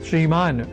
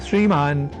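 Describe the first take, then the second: No difference in how they are said.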